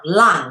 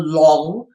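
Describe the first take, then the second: First: The vowel is a 'u' sound, like lung. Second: The vowel is an 'o' sound, like long. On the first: The speaker calls it right. "with a U sound" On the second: The speaker calls it wrong. "not Lang or Long with a O"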